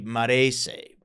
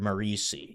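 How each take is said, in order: First: The name is said the Italian way. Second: The name is said the plain American way.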